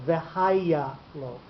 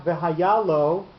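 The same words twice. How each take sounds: First: V'haya lo slowly, stress moved back to the ha of v'haya; accent pushed back. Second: V'haya lo with stress on the final ya of v'haya; accent before the shift. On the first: Teacher showing the note pushed backwards, v'haya lo stressed on ha. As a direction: lean on HA in v'haya, leaving ya light before lo. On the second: Teacher showing the unshifted form, v'haya lo stressed on ya. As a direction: stress ya, right next to lo, in v'haya lo. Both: Shown as a demonstration. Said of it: "the hey is gonna get the accent".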